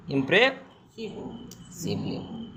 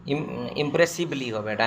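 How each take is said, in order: First: Very slow dictation. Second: Said in the usual way. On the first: Shown as a demonstration. Teacher dictating the spelling to students: very slow and soft. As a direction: draw ইমপ্রেসিভলি out very slowly and softly. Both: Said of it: "হ্যাঁ?".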